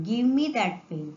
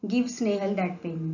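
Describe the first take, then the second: First: "me" lifted and stressed at the end. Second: Said in the usual way. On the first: Shown as a demonstration. Teacher giving the correct sentence to pupils, stress on me. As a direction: lean on "me" as the right word. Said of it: "Now I will not say". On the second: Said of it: "so here I will not say".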